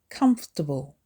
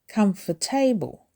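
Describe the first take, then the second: First: The word is said with three syllables. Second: The word is said with extra syllables. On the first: The speaker calls it right. "It's three syllables" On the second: The speaker calls it wrong. "Don't say comfortable"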